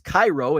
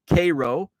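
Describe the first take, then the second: First: The first syllable sounds like "kye". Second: The first syllable sounds like "kay". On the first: This is how the city in Egypt is named. "but it's spelled the same as Cairo" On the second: This is how the local town is named. "It's pronounced like the syrup"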